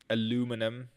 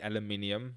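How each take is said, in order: First: It is said with an American pronunciation. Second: It is said with a South African pronunciation. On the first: The speaker calls it wrong. "I've been in America for so long" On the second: The speaker calls it right. "That's the South African way to say it"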